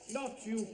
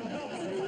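First: Said in the usual way. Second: Not you. pitched high and sharp; higher and exasperated. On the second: Acted.

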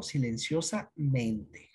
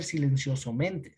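First: Slow "silenciosamente", clear A, then a break before "mente"; "silenciosamente" split in two to show the A before -mente; corrected A form. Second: "silenciosamente" said with O before -mente, as "silenciosomente"; "silenciosamente" mispronounced on purpose with O in place of A; wrong vowel form. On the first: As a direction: say "silenciosa... mente", drawing out both parts. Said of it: "se cambia esta vocal por A". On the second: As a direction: run it together as "silencioso-mente", keeping the O. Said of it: "No va a ser". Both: Shown as a demonstration.

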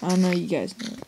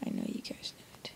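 First: Said in the usual way. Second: Hushed whispered repeat of the line. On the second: Pretend. Gamer whispering a teasing repeat to viewers. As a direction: breathe it as a secret to viewers.

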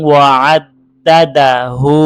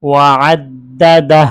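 First: WA-AD-DA-DA-HU with a long voiced "hu" at the end; full ending, no stop. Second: WA-AD-DA-DAH, closing on an h with no vowel; sakin final h. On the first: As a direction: sound the final vowel in HU. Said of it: "আর এখানে আমরা ওয়াকফ করলে". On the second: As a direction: stop on DAH, dropping the "u" of hu. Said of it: "এই হাটা সাকিন উচ্চারণ হবে". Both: Shown as a demonstration.

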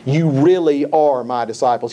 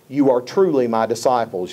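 First: Emphatic quote with "really" standing out. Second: Said in the usual way. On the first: Retold or imitated. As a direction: lean hard on "really" as you quote. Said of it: "He's being very emphatic there". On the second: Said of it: "You recognize from the King James".

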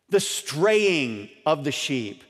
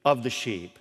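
First: The straying of the sheep drawn out slowly, each word weighted; slowed, deliberate restatement of The straying of the sheep; slow emphatic repeat. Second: Said in the usual way. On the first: Shown as a demonstration.

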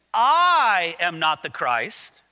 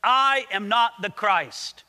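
First: "I" stretched long and loud, then "am not the Christ" falls away; stress on I. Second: "I am not the Christ" said slowly and firmly; weighty, drawn-out denial on "I am not the Christ"; great emphasis. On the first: Shown as a demonstration. Preacher demonstrating the Greek emphasis, heavy stress on "I". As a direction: lean hard and slow on "I" in "I am not the Christ". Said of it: "the emphasis in the grammar here goes something like this".

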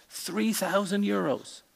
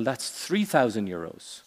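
First: High-pitched disbelief at the price; acted astonishment, pitched well up; incredulous echo. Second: Said in the usual way. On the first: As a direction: repeat it back like a shocked customer. Customer echoes price in joke.

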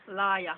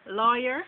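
First: "Liar" as Jamaican lawyer, LAH-yah; Jamaican pronunciation. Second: Said in the usual way. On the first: Shown as a demonstration. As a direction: open ah vowels in "Liar". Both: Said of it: "Just a little different take to it".

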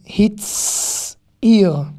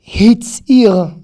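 First: "Hitzir" with a long hissed ts; "Hitzir" split by a lengthened ts; drawn-out TS. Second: "Hitzir" with a firm ts in the middle; "Hitzir" with t running straight into s; TS demonstration. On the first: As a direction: stretch the s of ts in "Hitzir", then finish. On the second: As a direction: model "Hitzir" as one word, louder. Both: Shown as a demonstration. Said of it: "c'est un T et un S consécutif".

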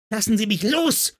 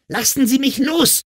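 First: High-pitched, strained yell without full volume; acted girlish roar, pitch way up. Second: Very high acted scream; high, strained girlish scream. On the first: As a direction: cry out high, struggling to get free. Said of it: "brüllte die Kleine". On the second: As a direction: shriek it to break free. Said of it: "schrie sie erneut". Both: A narrator's reading.

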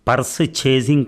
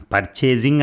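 First: "పర్స్ చేజింగ్" split into purse and chasing; wrong purchasing. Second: "పర్చేజింగ్" said as one smooth word, par-chey-jing; correct purchasing. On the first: Husband mocking the thief's "పర్స్ చేజింగ్" as purse chasing. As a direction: break "పర్స్ చేజింగ్" into two words, purse then chasing. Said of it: "అంతేగాని పర్స్ చేజింగ్ కాదు". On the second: Husband correcting the thief, "పర్చేజింగ్" said as one word. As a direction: run "పర్చేజింగ్" together with no break. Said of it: "పర్చేజింగ్ అనాలి". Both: Shown as a demonstration.

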